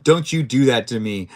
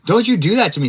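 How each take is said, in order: First: Said in the usual way. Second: Higher, louder playful scold; mock scolding. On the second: Real, not acted. Scolding his teammate after a scare, playful mock scold. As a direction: tell her off in jest, loudly.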